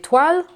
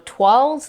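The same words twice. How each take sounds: First: The word is pronounced the French way. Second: The word is pronounced the English way.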